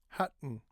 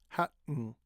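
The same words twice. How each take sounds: Both takes have the same delivery.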